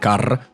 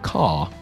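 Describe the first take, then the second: First: Scottish accent, with a rolled R. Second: Classic English accent, with no R sound.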